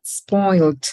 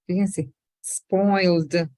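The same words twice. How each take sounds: First: Spoiled clipped into one louder beat; crisp model of spoiled, one beat; one syllable. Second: Spoiled said slowly as one syllable; drawn-out spoiled, no extra e before it; slow model of spoiled in a single beat. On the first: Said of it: "Como una sola". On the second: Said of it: "La S no es una sola sílaba". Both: Shown as a demonstration.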